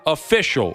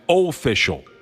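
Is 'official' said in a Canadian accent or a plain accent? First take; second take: plain; Canadian. First: It is said in the speaker's ordinary accent. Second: It is said in an exaggerated Canadian accent.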